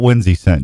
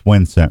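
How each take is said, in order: First: The name is said with three syllables. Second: The name is said with two syllables. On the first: The speaker calls it wrong. "not Winsy Scent" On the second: The speaker calls it right. "It's Wincent, right?"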